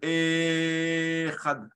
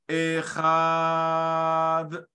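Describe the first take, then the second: First: The opening e vowel is drawn out. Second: The middle ch sound is drawn out. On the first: "le Aleph" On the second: "le Chet"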